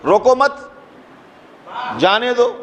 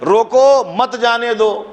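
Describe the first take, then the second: First: There is a pause right after the second word. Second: There is a pause right after the first word. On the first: Do not stop him; let him go. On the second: Stop him; do not let him go.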